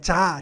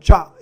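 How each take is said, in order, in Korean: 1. 이 음절은 입술을 평평하게 펴고 발음합니다. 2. 이 음절은 입술을 앞으로 둥글게 내밀고 발음합니다. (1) "자가 아니고요" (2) "입이 앞으로 튀어나가면서 성대가 울리는 거거든요"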